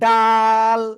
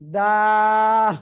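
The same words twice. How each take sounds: First: The word is said hard and forcefully. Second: The word is said softly, without force. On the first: The speaker calls it wrong. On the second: The speaker calls it right.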